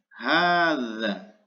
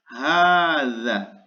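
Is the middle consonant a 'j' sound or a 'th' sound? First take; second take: th; th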